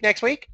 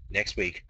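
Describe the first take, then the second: First: Said in the usual way. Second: Whisper. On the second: Acted. Whispered reply to own question.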